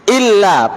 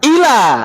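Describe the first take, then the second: First: The L sound is doubled and held long. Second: The L sound is single and short. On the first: It means except. The speaker calls it right. "Pakai tasdid atau tidak? Pakai" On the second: It means intended for. The speaker calls it wrong. "kita lupa membaca apa? Tasdid"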